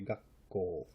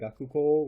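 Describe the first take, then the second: First: A doubled 'k' with a short catch is said. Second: A full 'ku' syllable is said before 'ko'. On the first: The speaker calls it right. "we say gakko" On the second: The speaker calls it wrong. "Instead of saying gakuko"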